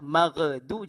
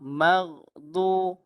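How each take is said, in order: First: The gh sound bounces like a released stop. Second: The gh sound is smooth friction in the throat. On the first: The speaker calls it wrong. "Jangan qalqalah. Magdu, jangan" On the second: The speaker calls it right. "betul-betul dilehir yang bahagian atas"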